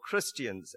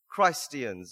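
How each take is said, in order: First: The first syllable sounds like short kris. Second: The first syllable sounds like the word Christ. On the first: It is the everyday way of saying the name. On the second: It stresses that they are Christ's people.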